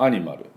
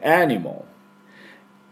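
First: The second-to-last syllable is a full clear 'ma'. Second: The second-to-last syllable is reduced to a 'mol' sound. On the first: The speaker calls it wrong. "日本だとアニマルということで、アっていう半母音みたいな音になってますが" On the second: The speaker calls it right. "エの真ん中でアニモル"

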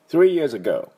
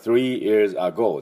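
First: The first syllable of ago is weak. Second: The first syllable of ago is strong. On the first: The speaker calls it right. "それだけでなんか、お、なんかネイティブっぽいなって音になる" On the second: The speaker calls it wrong. "じゃなくて"

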